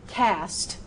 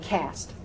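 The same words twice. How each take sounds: First: The word is said with exaggerated, precise articulation. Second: The word is said in a relaxed, everyday way. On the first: This is the technically correct, formal pronunciation. "I would not go cast" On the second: This is how it is said in everyday speech. "but I'd go cast"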